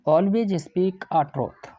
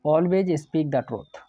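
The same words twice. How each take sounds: First: Very slow, word by word, like reading out a test sentence; slow dictation. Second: Very slow, each word set apart, the corrected sentence; slow dictation. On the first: Teacher reads the exam sentence to his class, very slowly. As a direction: spell out the faulty sentence slowly for students. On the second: Teacher gives the corrected sentence to his class, very slowly. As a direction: read the fixed sentence slowly so students can copy it. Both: Shown as a demonstration. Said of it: "complete sentence ही होता है".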